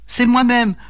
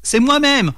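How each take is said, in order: First: High-pitched mild mock wail; lightly acted tearful lament from a fairy; pleurs joués. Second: High-pitched angry retort, acted by a narrator; rugissement de colère. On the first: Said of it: "pleura-t-elle". (plainte aiguë, légèrement pleurée) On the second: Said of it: "rugit l'homme fort en colère". (réplique en colère, lancée d'une voix haute) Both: A narrator's reading.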